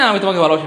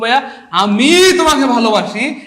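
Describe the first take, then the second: First: It is said plainly with no special stress. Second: The word আমি is strongly stressed.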